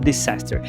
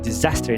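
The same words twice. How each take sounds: First: The first s sounds like an s. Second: The first s sounds like a z. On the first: The speaker calls it wrong. "não disaster" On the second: The speaker calls it right. "A pronúncia de desastre é disaster"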